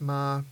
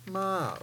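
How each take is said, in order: First: The pitch stays level in the middle. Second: The pitch drops from high to low. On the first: "The mid tone is ma" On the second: "the third tone is ma, or the drop tone"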